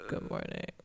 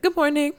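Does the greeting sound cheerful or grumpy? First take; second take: grumpy; cheerful. First: It is said in a grumpy, unhappy tone. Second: It is said in a cheerful, happy tone.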